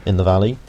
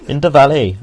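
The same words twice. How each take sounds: First: Said in the usual way. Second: Higher, louder mock Welsh lilt; bad Welsh accent. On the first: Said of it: "I'm Welsh". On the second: Gamer joking to viewers at the valley, bad Welsh accent. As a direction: put on a hammed-up Welsh accent. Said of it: "that was a horrible accent".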